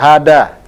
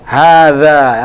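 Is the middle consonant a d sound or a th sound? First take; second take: d sound; th sound. First: The middle consonant is a plain d sound. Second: The middle consonant is a soft th sound. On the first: The speaker calls it wrong. "antum Sunda, dalnya dha dibaca dha, hada" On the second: The speaker calls it right. "hadha yang betul"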